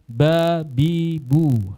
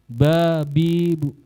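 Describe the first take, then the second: First: The final syllable is full length and volume. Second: The final syllable is quieter and shorter. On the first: "ya kan satu harokat, volumenya segitu" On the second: "Volumenya lebih pelan, kadar harokatnya lebih pendek"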